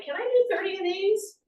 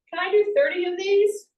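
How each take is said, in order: First: Higher inner question to yourself; asking yourself. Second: Higher and louder self-check; a higher, louder challenge to yourself; asking yourself. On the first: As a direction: wonder aloud if you can manage. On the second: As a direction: put the question to yourself out loud. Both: Retold or imitated. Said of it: "you say".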